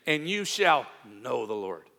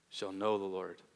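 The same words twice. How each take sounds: First: Said in the usual way. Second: Lower, much softer "Shall know the Lord"; soft, lowered repetition; quiet echo. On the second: Shown as a demonstration. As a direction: breathe "Shall know the Lord" as a hushed afterthought.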